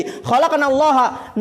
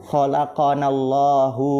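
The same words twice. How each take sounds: First: "khalaqanallaha" higher, drawn out, ending in -ha; wrong case ending. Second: "Khalaqanallahu" slow and lower, ending in -hu; correct case ending. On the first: Teacher recalls the earlier misreading, wrong ending shown slowly. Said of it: "kalau begini tadi". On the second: Teacher gives students the right reading, slow final -hu. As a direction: read "Khalaqanallahu" evenly, drawn out, final u. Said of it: "Yang benar bagaimana ini bacanya?". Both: Shown as a demonstration.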